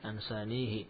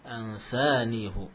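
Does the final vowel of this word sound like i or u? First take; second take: i; u. First: The word ends with an i vowel. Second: The word ends with a u vowel. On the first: It follows the general rule. The speaker calls it wrong. "Kalau sesuai kaidah ansanihi" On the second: It is the special reading in this verse. The speaker calls it right. "sini dibaca dengan dhamma ansanihu"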